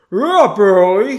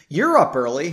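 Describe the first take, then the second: First: Loud, higher, garbled words round a mouthful; mouth full. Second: Said in the usual way. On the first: A narrator's reading. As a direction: talk as if chewing toast. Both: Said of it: "said with a mouth still full of toast".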